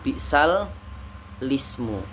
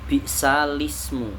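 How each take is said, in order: First: The words are split with a doubled lam. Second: The words run together with a single lam. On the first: The speaker calls it wrong. "bukan bi'sal lismu" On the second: The speaker calls it right. "tetapi digabung bi'salismu"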